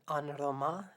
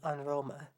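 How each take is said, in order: First: The final vowel is a full, clear vowel. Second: The final vowel is a weak schwa. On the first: The speaker calls it wrong. "rather than" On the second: The speaker calls it right. "better to pronounce it as a schwa"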